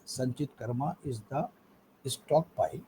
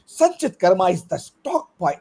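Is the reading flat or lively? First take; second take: flat; lively. First: It is read flatly with no pitch variation. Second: It is read with varied pitch and energy. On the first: The speaker calls it wrong. "there's no tonality, no uh, modulation" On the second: The speaker calls it right. "read like a, a news anchor, or like a speaker"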